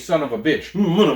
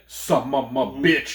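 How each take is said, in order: First: It is said in an ordinary, plain voice. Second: It is said in an exaggerated put-on voice. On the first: This is the ordinary way anyone would say it. "he can say son of a bitch" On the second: This imitates the comedian's signature delivery. "he always said son of a bitch"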